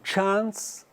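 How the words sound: It is said with a British accent. "britânico"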